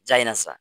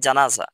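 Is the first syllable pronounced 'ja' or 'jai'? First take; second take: jai; ja. First: The first syllable is pronounced 'jai'. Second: The first syllable is pronounced 'ja'. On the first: The speaker calls it wrong. "এটা তো ভুল কথা।" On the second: The speaker calls it right. "বলতে হবে জানাজা"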